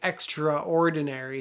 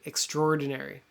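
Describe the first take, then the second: First: The 'a' after 'extr' is clearly pronounced. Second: The 'a' after 'extr' is silent. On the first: The speaker calls it wrong. "don't say extraordinary" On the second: The speaker calls it right. "ignore this A. Pretend it's not there"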